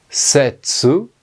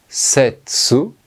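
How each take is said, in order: No difference in how they are said.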